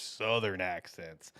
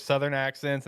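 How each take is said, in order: First: SOUTHERN leaned on and drawn out, lower and softer; SOUTHERN said slow and weighty, dropping away; emphatic SOUTHERN. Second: Said in the usual way. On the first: Shown as a demonstration. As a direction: stretch out SOUTHERN to mean the thickest kind. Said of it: "He's a Southern accent kinda guy". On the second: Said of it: "and then there's Southern accents".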